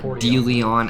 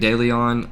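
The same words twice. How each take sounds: First: The name is said with the local pronunciation. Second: The name is said with an outsider pronunciation. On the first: The speaker calls it right. "as he says" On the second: The speaker calls it wrong. "I'm pretty sure I've been saying it wrong"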